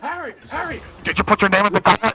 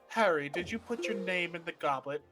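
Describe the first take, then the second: First: The question is asked loudly and aggressively. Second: The question is asked softly and calmly.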